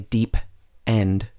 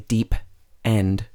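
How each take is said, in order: First: The two parts are said separately. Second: The two parts are said separately.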